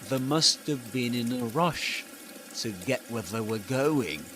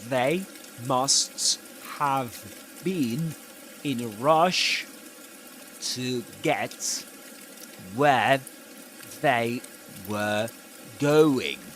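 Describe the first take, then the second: First: The words run together with reduced sounds. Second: Each word is said separately and fully. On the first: "he does something completely different" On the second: "if this weren't connected speech, you would read this like this"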